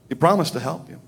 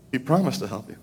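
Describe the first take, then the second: First: Said in the usual way. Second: Dropped soft and gentle; softer, gentle. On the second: Shown as a demonstration. Preacher assures the congregation, softer and gentle. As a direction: hush down on it, make it tender.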